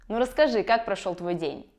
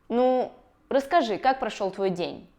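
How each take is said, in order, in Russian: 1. 'Nu' сразу сливается с остальной фразой. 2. 'Nu' выделяется отдельно, с собственным ударением. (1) "Вместо" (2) "когда слово «ну» постоянно выделяется"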